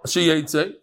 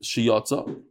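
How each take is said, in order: First: The middle vowel is an 'e' sound. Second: The middle vowel is an 'o' sound. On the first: The animal is going to come out. The speaker calls it wrong. "that's going to come out" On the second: The animals already went out. The speaker calls it right. "We're reading it Shiyotza"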